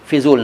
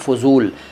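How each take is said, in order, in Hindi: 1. पहला स्वर छोटा 'i' है। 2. पहला स्वर छोटा 'a' है। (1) "नहीं" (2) "सही शब्द है"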